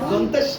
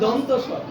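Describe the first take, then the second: First: The two words are merged into one slurred word. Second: The two words are said clearly and separately. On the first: The speaker calls it wrong. "দন্তেশ না" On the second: The speaker calls it right. "বলেন দন্ত স"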